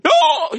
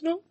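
First: It is shouted loudly. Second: It is said calmly, without shouting.

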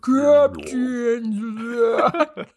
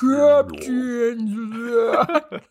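First: It is said very low and slowed down. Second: The same.

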